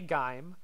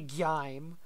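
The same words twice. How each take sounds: First: The name rhymes with dime. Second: The name does not rhyme with dime. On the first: The speaker calls it right. "like rhymes with dime" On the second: The speaker calls it wrong. "I don't say Gime"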